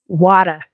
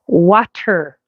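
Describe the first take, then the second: First: The word is said loosely, with a soft middle. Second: The word is said carefully, with a clear middle.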